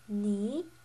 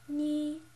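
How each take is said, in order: First: The pitch rises from middle to high. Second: The pitch stays level and high. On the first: "the slanted upwards tone" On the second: "the first tone, the flat tone"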